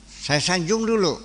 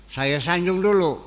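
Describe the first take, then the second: Both takes have the same delivery.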